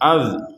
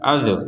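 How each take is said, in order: First: The z ends cleanly with no vowel after it. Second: The z is followed by an added vowel sound. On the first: The speaker calls it right. "itu kan tidak ada pantulan, dan itu yang benar" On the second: The speaker calls it wrong. "Yang salah itu azu azu azu"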